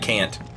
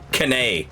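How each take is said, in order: First: It is one syllable ending in 't'. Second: It ends in an added 'ay' syllable. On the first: "instead of can't" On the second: "and canay instead of can't"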